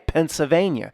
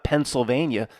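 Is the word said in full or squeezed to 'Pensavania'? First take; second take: squeezed; full. First: The word is squeezed to sound like Pensavania. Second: The word is said in full standard form. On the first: The speaker calls it right. "Pensa, S A V A N I A, Pennsylvania" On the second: The speaker calls it wrong. "It's not Pennsylvania"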